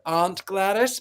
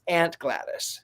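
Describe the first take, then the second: First: It is said with a British accent. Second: It is said with an American accent.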